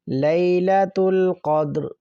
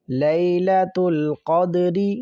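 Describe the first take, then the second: First: The last word ends on a bare consonant. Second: The last word ends with a short vowel.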